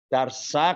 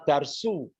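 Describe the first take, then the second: First: The word ends in an a vowel. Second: The word ends in a u vowel. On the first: The speaker calls it right. "Darsa kalau objek itu a ya" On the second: The speaker calls it wrong. "Jangan dibaca darsu"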